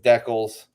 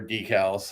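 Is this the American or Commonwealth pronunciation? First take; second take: Commonwealth; American. First: It is said with a Commonwealth pronunciation. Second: It is said with an American pronunciation.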